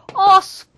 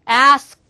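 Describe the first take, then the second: First: It is said with a British accent. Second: It is said with an American accent. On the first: "영국식은 당연히 뭐다" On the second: "미국식은"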